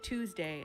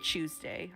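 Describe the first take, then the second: First: It is pronounced in an American way. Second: It is pronounced in a British way. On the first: "I don't say Tuesday" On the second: "I pronounce things like they do in the U K. ... I say Tuesday"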